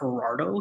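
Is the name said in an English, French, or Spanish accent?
English. It is said with an English accent.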